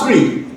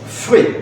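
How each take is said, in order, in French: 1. Le mot commence par un son T. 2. Le mot commence par un son F. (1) "on ne dit pas tree pour le mot trois" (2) "on dit free"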